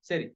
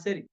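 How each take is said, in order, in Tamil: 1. முதல் உயிரெழுத்து லேசானது, 'a' மற்றும் 'ae' இடையில். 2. முதல் உயிரெழுத்து லேசானது, 'a' மற்றும் 'ae' இடையில்.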